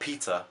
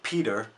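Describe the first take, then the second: First: Peter is said in a non-American accent. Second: Peter is said in an American accent. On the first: "and not Peter" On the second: "in the U S you'd pronounce it Peter"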